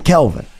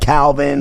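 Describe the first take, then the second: First: The first vowel sounds like 'bell'. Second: The first vowel sounds like 'bat'. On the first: The speaker calls it right. "my real first name is Kelvin" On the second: The speaker calls it wrong. "people don't even say it right. They're like Calvin"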